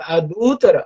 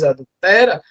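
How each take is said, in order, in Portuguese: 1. A tônica cai na segunda sílaba. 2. A tônica cai na terceira sílaba. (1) "trocou a sílaba tônica" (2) "trocou a sílaba tônica de adúltera por adultera"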